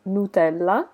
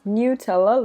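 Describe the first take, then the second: First: "Nutella" said the Italian way, as noo-TEL-la; Italian pronunciation. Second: "Nutella" said the English way, as new-TELL-uh; English pronunciation. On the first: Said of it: "I am Italian, so I normally pronounce this". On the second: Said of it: "in English you pronounce this as". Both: Shown as a demonstration.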